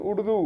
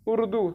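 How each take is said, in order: First: उर्दू as people wrongly say it; the wrong उर्दू, with a hard curled 'r-d' cluster; common mispronunciation. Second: Higher-pitched, corrected उर्दू with a clear separate 'r'; correct pronunciation. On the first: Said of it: "लोग पढ़ते हैं उर्दू". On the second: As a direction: model उर्दू high, then falling. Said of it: "उर्दू नहीं है". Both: Shown as a demonstration.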